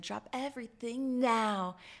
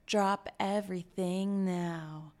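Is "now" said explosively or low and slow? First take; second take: explosively; low and slow. First: "Now" is pushed out forcefully and excited. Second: "Now" is said low and slow.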